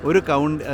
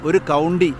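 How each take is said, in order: No difference in how they are said.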